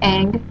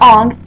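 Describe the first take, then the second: First: The vowel is the front 'a' of 'bang'. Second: The vowel is the back 'o' of 'long'. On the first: The speaker calls it right. "this boy named Aang" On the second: The speaker calls it wrong. "not Ong"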